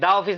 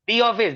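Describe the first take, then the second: First: 'The' is said with a short 'uh' vowel. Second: 'The' is said with a long 'ee' vowel. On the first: The speaker calls it wrong. "दा office नहीं" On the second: The speaker calls it right.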